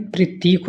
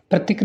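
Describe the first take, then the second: First: प्रतीक with a long ee; correct long vowel. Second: प्रतीक with a short i; wrong short vowel. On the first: Teacher corrects students, long vowel. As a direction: end प्रतीक on a drawn-out teek. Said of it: "होता है". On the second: Teacher shows students the mistake, short vowel. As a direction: end प्रतीक on a brief tik. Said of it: "नहीं". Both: Shown as a demonstration.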